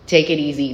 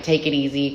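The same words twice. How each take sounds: First: "Take it easy" said firmly, louder, falling; emphatic repeat. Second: Said in the usual way. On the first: Real, not acted. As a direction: press "Take it easy" home with weight. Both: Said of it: "repeated advice, building emphasis".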